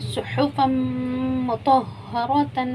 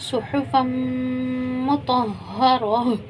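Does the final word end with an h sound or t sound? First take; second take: t sound; h sound. First: The last word ends with a t and nasal sound. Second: The last word ends with a soft h sound. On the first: The reading continues without stopping. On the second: The reading stops at this word.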